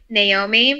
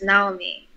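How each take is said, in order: First: The name has an American English pronunciation. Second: The name has a Japanese pronunciation. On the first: "on American T V they call her they pronounce her name like" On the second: "the Japanese pronunciation is"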